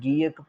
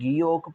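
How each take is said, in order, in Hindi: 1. दूसरे अक्षर में खुला 'a' स्वर है। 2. दूसरे अक्षर में गोल 'o' स्वर है। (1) "कुछ लोग जो हैं वो इसको गी ओक की बजाय गी अक पढ़ते हैं" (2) "बेहतर मैं कहूँगा आपके लिए कि यही है कि आप गी ओक पढ़ें"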